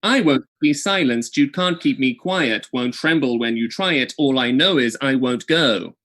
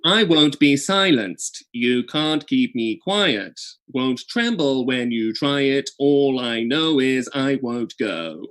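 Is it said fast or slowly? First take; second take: fast; slowly. First: It is said fast. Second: It is said slowly.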